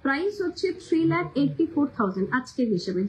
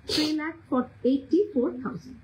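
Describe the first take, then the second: First: Said in the usual way. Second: "three lakh", a pause, then "eighty four thousand"; slow, broken into chunks. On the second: Shown as a demonstration. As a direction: spell out the price in two slow pieces for latecomers. (ধীরে ধীরে, ভেঙে ভেঙে দাম বলা) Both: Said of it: "সেই জন্য আমি আস্তে আস্তে বলছি".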